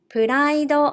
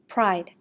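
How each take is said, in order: First: It is said with Japanese katakana pronunciation. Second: It is said with English pronunciation. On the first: "I will read in Japanese first" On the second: "meaning pride"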